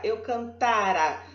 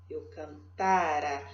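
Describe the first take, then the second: First: Said in the usual way. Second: "cantara" said slowly and lower, with the middle syllable "ta" clearly stressed. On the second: Shown as a demonstration. Teacher showing the class the stressed syllable, slow stress on "ta" in "cantara". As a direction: lean on the "ta" of "cantara", slow and low. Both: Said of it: "A sílaba tônica aqui, ó, é esse tá".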